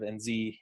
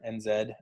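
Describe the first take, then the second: First: The Z is said the American way, as zee. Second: The Z is said the Australasian way, as zed.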